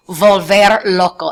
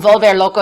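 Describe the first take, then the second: First: "volver loco" said slowly, each syllable clear, in Spanish; slow careful modeling of "volver loco" with Spanish vowels; model pronunciation. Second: Said in the usual way. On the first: Shown as a demonstration. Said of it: "there's this expression". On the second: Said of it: "volver loco is like".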